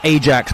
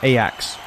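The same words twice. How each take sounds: First: The J is clearly pronounced. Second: The J is not pronounced.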